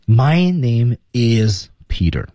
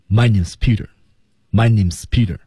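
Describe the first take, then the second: First: "My name is Peter" said slowly, every word separate with "is" given in full; over-articulate "is" in "My name is Peter", slowly, word by word; full-form IS. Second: "My name is Peter" run together, "is" squeezed to a mere s; reduced IS. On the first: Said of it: "没这么说的". (“My name is Peter”逐词慢读，is完整重读) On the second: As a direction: squash "is" into "name", as in "name's Peter", quick and connected. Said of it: "S是被揉进去、缩进去、压缩进去的". (“My name is Peter”连读，is缩成s) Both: Shown as a demonstration.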